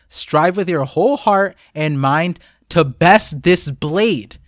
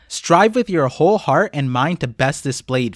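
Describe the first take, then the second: First: The line is read at a slower pace. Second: The line is read at a quick pace. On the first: "let me read it again, but slower" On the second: "I read that quickly"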